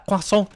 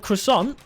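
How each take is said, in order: First: It is said with a French pronunciation. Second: It is said with an American pronunciation. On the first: "as uh, as the French say" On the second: "as the Americans say"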